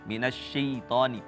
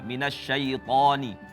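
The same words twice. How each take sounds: First: The vowel after 'sy' sounds close to 'i'. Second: The vowel after 'sy' is a full clear 'a'. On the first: The speaker calls it wrong. "seperti berharokat kasrah" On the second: The speaker calls it right. "fatahkan betul-betul, sempurnakan fatah"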